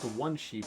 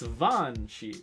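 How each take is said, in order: First: The first word begins with a plain W sound. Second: The first word begins with a V sound. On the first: The speaker calls it wrong. "It's not one sheep" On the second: The speaker calls it right. "You just have to throw V's into everything as much as you possibly can"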